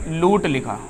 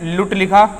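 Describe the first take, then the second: First: लूट with a long oo; long vowel. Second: लुट with a short u; short vowel. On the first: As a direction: hold the vowel in लूट longer. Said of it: "यहाँ पर ये बड़े ऊ की मात्रा लगी है". (लूट में दीर्घ ऊ) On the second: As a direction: keep the vowel in लुट brief. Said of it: "यहाँ पर ये छोटी ऊ की मात्रा लगी है". (लुट में ह्रस्व उ) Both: Shown as a demonstration.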